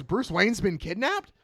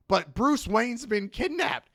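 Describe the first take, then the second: First: High, slowed, rising disbelief; shocked echo question. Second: High, drawn-out acted protest; urgent plea. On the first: Retold or imitated. Boss echoes Peacemaker's news, shocked. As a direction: repeat it as an incredulous question, pitch raised. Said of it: "And she goes". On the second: Peacemaker begs his boss for help, urgently. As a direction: plead it slowly in a raised voice. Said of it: "And he goes".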